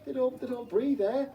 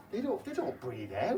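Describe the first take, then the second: First: "They don't, they don't breathe air" squeaked much higher in a scoffing tone; mocking repeat. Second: Said in the usual way. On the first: Shown as a demonstration. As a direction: parrot the claim back in a high, mocking squeak.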